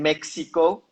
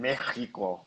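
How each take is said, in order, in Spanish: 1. Se dice con acento del inglés americano. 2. Se dice con acento español de España. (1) "en Estados Unidos le dicen México" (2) "españoles le dicen México"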